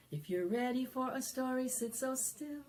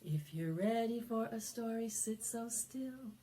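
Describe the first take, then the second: No difference in how they are said.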